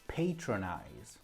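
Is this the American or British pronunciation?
American. It is said with the American pronunciation. "in America they say"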